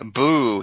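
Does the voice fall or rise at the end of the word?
falls. The voice falls at the end. It is a scary exclamation.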